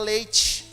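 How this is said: It is said in a São Paulo city accent. "lá todo mundo fala leite"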